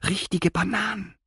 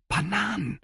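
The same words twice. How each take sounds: First: High, quivering with craving; trembling voice. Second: Trembling voice. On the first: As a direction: let the voice shake on Bananen. (zitternde, hohe Stimme) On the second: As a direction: voice shaking with longing, high. (zitternde Stimme, hoch) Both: A narrator's reading. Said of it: "Etzos Stimme zitterte".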